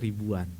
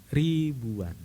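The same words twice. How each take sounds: First: Said in the usual way. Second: "Ribuan" with a long drawn-out first syllable; emphatic stretch. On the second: Real, not acted. Preacher stresses the church's huge congregation, emphatic stretch on "Ribuan".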